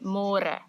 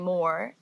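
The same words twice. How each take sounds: First: The r is rolled with the tongue. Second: The r is soft, like in English. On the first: The speaker calls it right. "This one has a r like before" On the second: The speaker calls it wrong. "don't say more"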